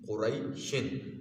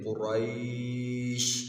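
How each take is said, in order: First: The vowel before 'sh' is short. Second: The vowel before 'sh' is held long. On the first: The word is read on without stopping. "अगर शिन पढ़ना चाहते हैं तो फिर कुरै को लंबा नहीं करेंगे" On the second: The reader stops on this word. "फिर लंबा करेंगे कुरैश"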